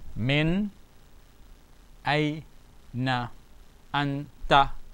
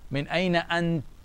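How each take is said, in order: First: The final vowel is sounded at the end. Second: The final vowel is left off at the end.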